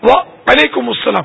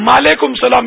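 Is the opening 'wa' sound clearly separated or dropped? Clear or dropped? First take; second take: clear; dropped. First: The opening 'wa' is held with a slight break. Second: The opening 'wa' merges away into 'ma'. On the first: The speaker calls it right. "واؤ میں تھوڑا سا وہ سکتہ دیں گے نا تو صحیح ہو جاتا ہے" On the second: The speaker calls it wrong. "میم بولتے ہیں مالیکم سلام"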